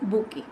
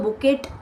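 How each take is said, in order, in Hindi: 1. इस शब्द के अंत में कोई t ध्वनि नहीं है। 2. इस शब्द के अंत में t की ध्वनि बोली जाती है। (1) "it is called as बुके" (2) "कभी आप उसको बुकेट या बॉकेट नहीं पढ़ेंगे"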